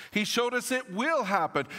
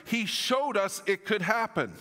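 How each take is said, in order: First: "will" punched high with conviction; stress on WILL. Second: Emphasis on "showed", raised pitch; stress on showed. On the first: Preacher assures congregation of resurrection, stressing "will". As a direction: hit the word "will" hard. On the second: Preacher tells congregation of Jesus' example, stressing "showed". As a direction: lean on "showed" as proof it could happen. Contrasts could with will. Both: Real, not acted.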